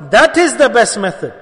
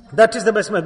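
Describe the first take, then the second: First: Louder, hammered home; emphatic declaration. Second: Said in the usual way. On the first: Real, not acted. Preacher insisting to his brothers on the Prophet's way, loud and firm. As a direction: drive the point in with force.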